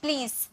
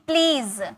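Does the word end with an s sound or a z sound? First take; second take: s sound; z sound. First: The word ends with an s sound. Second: The word ends with a z sound. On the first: The speaker calls it wrong. "बहुत सारे student इसे प्लीज कहते हैं" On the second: The speaker calls it right. "ज होता है, स नहीं होता है"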